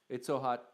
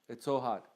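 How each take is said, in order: No difference in how they are said.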